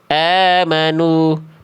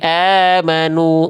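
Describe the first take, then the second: First: The final u is said with relaxed lips. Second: The final u is said with pushed-out lips. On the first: The speaker calls it wrong. "jangan cuman amanu" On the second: The speaker calls it right. "tapi amanu muncungkan"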